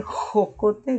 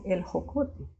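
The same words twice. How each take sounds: First: Jocote with a harsh rasping J; jocote, J fully rasped; strong J. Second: El jocote with a barely breathed J; el jocote, J almost silent; soft J. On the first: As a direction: scrape the J in jocote at the back of the throat. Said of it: "En vez de decir jocote". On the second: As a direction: let the J in jocote fade to a light h. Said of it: "dicen el jocote". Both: Shown as a demonstration.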